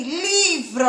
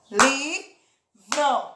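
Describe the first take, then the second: First: Said in the usual way. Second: "Livro" in two beats with a gap, li - vro; split into syllables. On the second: Shown as a demonstration. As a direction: separate both syllables of "Livro". ("Livro" separado em duas sílabas: li - vro) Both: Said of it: "Só tem duas".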